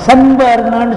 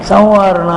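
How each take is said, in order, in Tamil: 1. மூக்கொலி முழுமையாகவும் தெளிவாகவும் ஒலிக்கப்படுகிறது. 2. மூக்கொலி லேசாகவும் மென்மையாகவும் ஒலிக்கப்படுகிறது. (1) "சன்வாரணான்னு சொல்லக்கூடாது" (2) "நூலை லேசாக உச்சரிக்கணும்"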